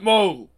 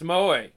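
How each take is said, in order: First: It sounds like the English name Moe. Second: It does not sound like the English name Moe. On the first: The speaker calls it wrong. "not moe. Not like the Simpsons" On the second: The speaker calls it right. "Pronounce moe"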